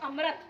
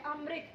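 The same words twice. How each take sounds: First: "अमृत" को गलत अम्रत बोलें; children's misreading. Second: "अमृत" को अम्रित बोलें; री sound in अमृत. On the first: Retold or imitated. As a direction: misread "अमृत" as amrat, ra not ri. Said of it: "कई बच्चे पढ़ते हैं इसको". (बच्चों वाला "अमृत", र की आवाज़ से) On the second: Shown as a demonstration. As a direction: say "अमृत" as amrit, with ri. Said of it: "री की आवाज आ रही है ना". ("अमृत" में री की आवाज़)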